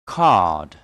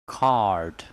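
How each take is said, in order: First: "Card" with long "ah", silent R; British pronunciation. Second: "Card" with the R sounded; American pronunciation. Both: Shown as a demonstration. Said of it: "And American English will be".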